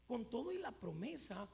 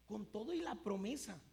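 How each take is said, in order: Both takes have the same delivery.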